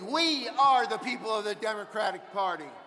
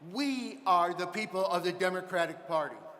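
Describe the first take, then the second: First: It is yelled loudly. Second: It is said at normal speaking volume.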